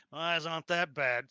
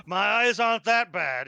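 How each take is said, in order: First: Said in the usual way. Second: Laughing. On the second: Real, not acted. Laughing off being called blind.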